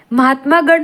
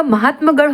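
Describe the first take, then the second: First: महात्मागढ़ with long -maa; wrong form. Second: Said in the usual way. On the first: Shown as a demonstration. Teacher rejects a misspelling, long -maa in महात्मागढ़. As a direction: hold the aa after m in महात्मागढ़. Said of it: "महात्मागढ़ नहीं होगा". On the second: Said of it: "महात्मगढ़ होगा".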